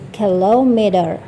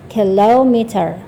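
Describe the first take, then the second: Both takes have the same delivery.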